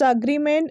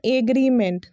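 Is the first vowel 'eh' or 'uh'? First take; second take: uh; eh. First: The word starts with a short 'uh' vowel. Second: The word starts with an 'eh' vowel. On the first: The speaker calls it right. "The fifth one is it's अग्रीमेंट" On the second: The speaker calls it wrong. "It's not एग्रीमेंट"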